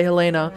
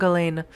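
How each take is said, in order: First: Helena said with a final a, heh-LAY-na; pronunciation try. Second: Helene said the French way, eh-LEN; pronunciation try. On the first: Player guessing the name, Helena with an a. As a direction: say Helena, three syllables ending in a. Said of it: "I want to say Helena". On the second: Player guessing the name, French Helene. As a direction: read Helene as eh-LEN, nasal French end. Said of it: "not sure how to pronounce your name". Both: Shown as a demonstration.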